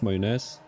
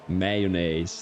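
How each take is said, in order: First: The word is pronounced with a Flemish sound. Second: The word is pronounced with an American sound. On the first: "I pronounced that very Flemish" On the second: "like the Americans"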